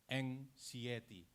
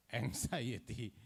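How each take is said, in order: First: Anxiety said slowly as "ang-SEE-eh-tee", with the middle vowel like "see"; old wrong pronunciation. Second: Anxiety said slowly as "ang-ZY-uh-tee", with "zy" like "eye"; correct pronunciation. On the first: Teacher to students, showing how he once mispronounced it, slow. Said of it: "two years ago, I pronounced it". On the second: Teacher to students, showing the dictionary's right pronunciation, slow. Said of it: "this is not correct". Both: Shown as a demonstration.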